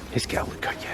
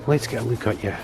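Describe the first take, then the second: First: Soft whisper to the bird; whispered to a hawk. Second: Said in the usual way. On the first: Real, not acted. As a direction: whisper so you don't startle it. Leaning in to see a hawk.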